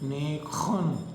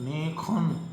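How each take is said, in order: First: The middle consonant is a rough throaty kh. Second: The same.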